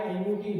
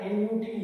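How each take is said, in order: Both takes have the same delivery.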